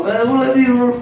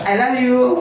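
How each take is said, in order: First: Imitating a child garbling "I love you"; higher, mushy toddler-like "I love you"; bata nga dili maka-pronounce. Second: Said in the usual way. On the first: (sundoga ang bata nga bulol mosulti og "I love you") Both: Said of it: "No, di niya ma-pronounce".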